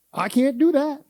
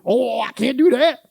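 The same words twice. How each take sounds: First: Higher, brisk mock refusal; curt imitated refusal; quick excuse. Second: Higher, drawn-out reluctant excuse; mock the reluctant volunteer; stretched-out whining refusal; whiny excuse. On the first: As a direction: toss off the excuse. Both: Mimicking church members' excuses.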